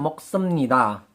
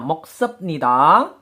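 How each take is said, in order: First: An m sound comes right before nida. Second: A p sound comes right before nida. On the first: This is the actual pronunciation. "pelafalannya moksemnida" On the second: This follows the written spelling. "Penulisannya moksepnida"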